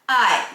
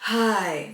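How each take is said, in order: First: The word starts with a sharp, punchy onset. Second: The word starts with a breathy onset of air. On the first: The speaker calls it right. "that's your glottal attack" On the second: The speaker calls it wrong. "that's breathy"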